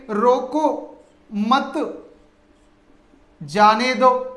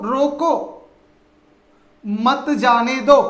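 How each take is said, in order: First: रोको मत, long stop, then जाने दो; pause after मत. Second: Long stop after रोको, then मत जाने दो as one phrase; pause after रोको. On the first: Teacher showing the opposite meaning to students, long pause after मत. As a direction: hold a long break between मत and जाने दो. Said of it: "यानी कि रोकिए मत". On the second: Teacher demonstrating a comma to students, long pause after रोको. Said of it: "जाने का कार्य जो हो रहा उसे मत होने दो". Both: Shown as a demonstration.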